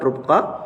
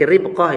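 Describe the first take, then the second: First: The first syllable has the vowel 'u'. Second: The first syllable has the vowel 'i'. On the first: The speaker calls it wrong. "bukan rubqah" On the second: The speaker calls it right. "dengan dibaca kasrah ra-nya berarti ribqah"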